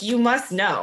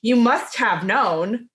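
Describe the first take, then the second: First: "You must know." falling, with stress on "must"; falling statement. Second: "You must have known." slow, with stress on "must" and a rising end; rising question. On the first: To co-host, showing her reading of Bill's line. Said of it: "I just read it as he was making that statement". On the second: To co-host, the reading Bill did not give, as a rising question. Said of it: "He didn't say". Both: Shown as a demonstration.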